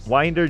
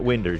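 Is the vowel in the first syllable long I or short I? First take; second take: long I; short I. First: The first vowel is a long I, as in mind. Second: The first vowel is a short I, as in win. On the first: The speaker calls it right. "Winder is pronounced with a long I, like the word mind" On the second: The speaker calls it wrong. "not Winder"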